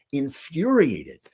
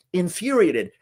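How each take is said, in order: First: Infuriated drawn out slowly, each syllable weighted; slow, weighty. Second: Infuriated said higher and pushed harder; rising emphasis. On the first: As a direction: let infuriated sink in slowly. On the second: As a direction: lift infuriated up, insistent. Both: Real, not acted. Repeats word for emphasis.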